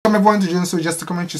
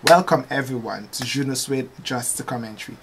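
First: It is said at a faster pace. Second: It is said at a slower pace.

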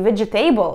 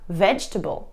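First: Every written syllable is pronounced, including the silent one. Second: One syllable is dropped, leaving the silent sound unsaid. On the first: The speaker calls it wrong. "не vegetable" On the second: The speaker calls it right. "а vegetable"

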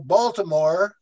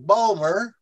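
First: It is said with full standard pronunciation. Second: It is said in a Maryland local accent.

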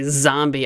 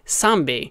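First: The word begins with a buzzing z sound. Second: The word begins with a hissing s sound. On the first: The speaker calls it right. "if I want to say zombie" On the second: The speaker calls it wrong. "It turned into S's"

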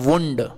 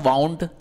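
First: The vowel sounds like the one in 'moon'. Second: The vowel sounds like the one in 'cow'. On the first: It is the noun meaning an injury. "इसका उच्चारण करते हैं वुंड" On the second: It is the past form of wind. "इसका उच्चारण यहाँ पे हम क्या कर रहे थे, वाउंड"

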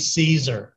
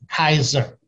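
First: The word begins with a soft S sound. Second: The word begins with a hard K sound. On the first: This is the usual modern English way of saying it. "You and I pronounce as C's" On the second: This is how it was said in Latin. "They pronounce as keys"

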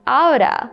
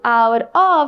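First: It is said as one reduced word. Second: It is said as two full words. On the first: "you can say" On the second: "instead of saying"

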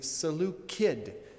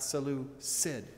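First: The C is pronounced as a hard K sound. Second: The C is pronounced as a soft S sound. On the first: The speaker calls it right. "Seleucus has a hard C. ... So it would be Seleucid" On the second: The speaker calls it wrong. "not Seleucid"

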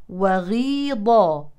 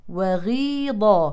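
The two takes are said the same way.

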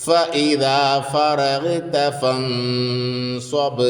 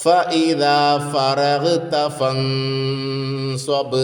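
Both takes have the same delivery.

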